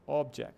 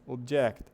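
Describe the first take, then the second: First: OBject, weight on the opening; stress on first syllable. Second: ObJECT, slow and punched at the end; stress on last syllable. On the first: Teacher contrasting noun with verb, "object" stressed at the start. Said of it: "Tá no começo". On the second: Teacher contrasting verb with noun, "object" stressed at the end. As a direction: hit the JECT of "object". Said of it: "onde a ênfase tá no final". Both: Shown as a demonstration.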